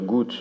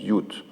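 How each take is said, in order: First: The word is said in standard German. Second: The word is said in Cologne dialect. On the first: "au lieu de dire gut" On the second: "dans le dialecte de Cologne, on dit jut"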